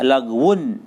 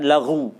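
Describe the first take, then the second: First: The word ends with a full '-un' ending. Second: The word ends without the '-un' ending.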